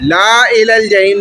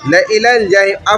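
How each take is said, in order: First: The vowel after the first L is drawn long. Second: The vowel after the first L is short. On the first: The speaker calls it wrong. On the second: The speaker calls it right.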